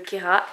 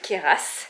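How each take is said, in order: First: The final S is not pronounced. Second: The final S is pronounced. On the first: The speaker calls it right. "on ne prononce pas le S" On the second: The speaker calls it wrong. "et pas le Kéras"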